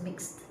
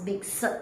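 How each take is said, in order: First: The ending is pronounced plainly, without extras. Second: The ending is pronounced with an extra sound. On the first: The speaker calls it right. "No, it's just mixed" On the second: The speaker calls it wrong. "Don't pronounce mixed"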